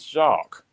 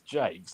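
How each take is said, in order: First: The name is said the French way. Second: The name is said the English way. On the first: The speaker calls it right. "it's Jacques. Let's look at the spelling of it" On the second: The speaker calls it wrong. "he calls himself Alex Jakes. Like it's not that"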